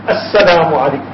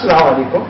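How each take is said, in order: First: The greeting starts with a clear glottal 'as' syllable. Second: The greeting starts directly on Salaam, no opening syllable. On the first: The speaker calls it right. "Pronounce that Alif, that Hamza at the beginning" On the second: The speaker calls it wrong. "It's not Salaam Alaikum"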